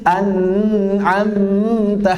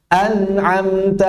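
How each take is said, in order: First: The nasal n sound is held long. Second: The nasal n sound is kept short. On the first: The speaker calls it wrong. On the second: The speaker calls it right.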